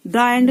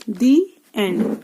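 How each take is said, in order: First: "द end" with a short "द", as in duh; quick short "द" before "एंड", marked as wrong; wrong form shown. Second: "दी एंड" said slowly with a long "दी" like thee. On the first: Teacher shows students the wrong form, short "द end". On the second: Teacher models the correct form for students, slow "दी एंड". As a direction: stretch out "दी" before "एंड", slow and deliberate. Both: Shown as a demonstration. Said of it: "द end नहीं बोलेंगे".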